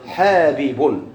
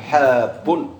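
First: حابب said slowly with both ba sounds split apart, ha-bi-bun; original form. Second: حاب said as one merged syllable with the doubled ba fused, drawn out slowly; contracted form. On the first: Teacher showing students the original form, slow and spelled out. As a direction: pull apart حابب so each ba is heard. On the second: Teacher showing students the contracted form, slow and drawn. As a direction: stretch out حاب with the two ba sounds merged into one. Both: Shown as a demonstration. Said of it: "شنو الأصل؟".

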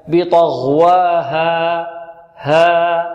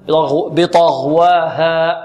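First: بطغواها very slow, final alif left open into air; open alif ending. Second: بطغواها slowed, final alif shut off into a hamza; wrong hamza ending. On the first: Teacher corrects the mistake, final alif of بطغواها left open. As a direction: let the ها of بطغواها fade out without a hamza. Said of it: "فلا نغلق المخرج قبل انتهاء الألف". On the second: Teacher shows students the mistake, final alif of بطغواها cut by hamza. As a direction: close the throat before the alif of بطغواها ends. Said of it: "هذا خطأ". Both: Shown as a demonstration.

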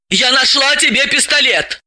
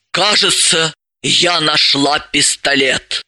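First: Тебе punched, higher and emphatic; stress on тебе. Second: Amazed pride. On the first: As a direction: lean hard on тебе. Repeats claim, stressing тебе. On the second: Elizaveta tells Dalila, slow and amazed. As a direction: let it out, stunned and proud. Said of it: "выдохнула с изумлённой гордостью". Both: Acted.

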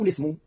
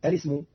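First: "الاسم" begun straight on the l, no hamza; "الاسم" with the first hamza left out; opening hamza dropped. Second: "الاسم" begun with a clear glottal stop; "الاسم" with the first hamza pronounced; opening hamza kept. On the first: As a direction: slide into "الاسم" without the glottal stop. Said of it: "وحذفها". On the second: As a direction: start "الاسم" on a sounded hamza. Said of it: "جاز فيها إثبات الهمزة الأولى". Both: Shown as a demonstration.

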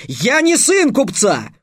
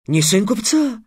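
First: High, loud, indignant outburst; roared retort. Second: High-pitched puzzled echo; surprised question. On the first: Trix correcting the slave trader, roaring. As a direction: roar it out, drawing the words out. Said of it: "рявкнул Трикс". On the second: Slave trader questioning Trix's claim, surprised. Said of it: "удивился работорговец". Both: A narrator's reading.

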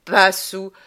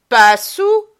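First: Said in the usual way. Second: High, loud scornful question; scornful mock question; mocking echo. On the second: A narrator's reading. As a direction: throw his words back at him. Girl mocks his denial.

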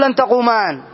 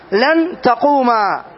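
First: تقومان said with the final nun kept, as the mistaken form; wrong form with nun. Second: تقوما said slowly, ending on the long a with no nun; slow, careful تقوما, the nun dropped; correct form without nun. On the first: Teacher showing students the wrong form, nun kept. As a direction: say تقومان ending in a clear nun, the form to avoid. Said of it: "ما تقول". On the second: Teacher modelling the correct form for students, slowly. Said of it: "تقول لن تقوما". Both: Shown as a demonstration.

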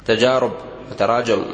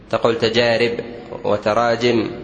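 First: تجارب and تراجم said with u after the alif, tajarub, tarajum; wrong form. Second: تجارب and تراجم ending in -ib and -im with kasra after the alif; correct form. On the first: Teacher quoting the common mistake, تجارب with damma after alif. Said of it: "خطأ". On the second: Teacher giving the correct plural, تجارب with kasra after the alif. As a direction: say تجارب as tajarib and تراجم as tarajim. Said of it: "الضم فيما بعد الألف خطأ". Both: Shown as a demonstration.

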